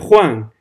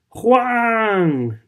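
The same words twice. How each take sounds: First: The name is said somewhat louder than before. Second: The name is screamed in anguish. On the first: "Ella más alto" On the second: "el grito desgarrador de ella"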